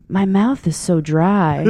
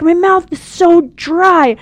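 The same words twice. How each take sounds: First: Drawn-out, spaced-out retold complaint; slow, dazed. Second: High, loud, slow mock complaint; dry-mouthed. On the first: Stoned mom on the phone to her daughter, slow and dazed. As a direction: imitate a stoned mom, slowly. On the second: Stoned mom complains to daughter mid-rant, dry-mouthed. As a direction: imitate a sticky, parched mouth, pitched right up. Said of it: "you can hear all the traction in her mouth".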